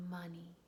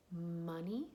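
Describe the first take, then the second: First: "Money" with the opening M held long; slow word demo. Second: Said in the usual way. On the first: Shown as a demonstration. Teacher models first sound for children, stretched M in "Money". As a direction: hum into the M of "Money", then finish the word. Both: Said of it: "Say it slowly".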